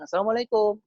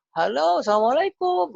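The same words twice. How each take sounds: First: Higher-pitched cheery hello; lightly lifted, upbeat salam; phone greeting. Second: High, loud, drawn-out hello; exuberant greeting. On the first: Father greeting his child on the phone, lightly upbeat. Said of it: "Mungkin nadanya aja sudah berbeda". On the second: Father phoning his seven-year-old, exuberant sing-out greeting. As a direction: sing out a big surprise salam. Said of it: "mungkin dengan intonasi seperti itu". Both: Shown as a demonstration.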